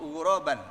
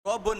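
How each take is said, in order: First: The word ends with the sound -an. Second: The word ends with the sound -un. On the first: The speaker calls it right. "dibaca A tadi itu" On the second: The speaker calls it wrong. "nggak bisa"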